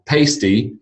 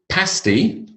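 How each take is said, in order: First: Pasty with the a of paste; diphthong pasty. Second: Pasty with the a of cat, pitched high; short-a pasty. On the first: Teacher explaining the colour word, long-a pasty. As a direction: say pasty as PAYS-tee. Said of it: "the other one is a diphthong sound". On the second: Teacher introducing unfamiliar word, short-vowel Pasty. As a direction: say Pasty as PASS-tee. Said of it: "One is a vowel sound, a". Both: Shown as a demonstration.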